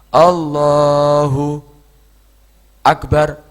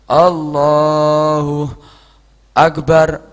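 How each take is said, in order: First: A long pause comes inside the phrase. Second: A short breath pause comes inside the phrase. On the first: The pause is longer than a breath. "Lebih daripada itu, itu saktah tawilah" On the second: The pause is only long enough to take a breath. "Diam untuk mengambil nafas"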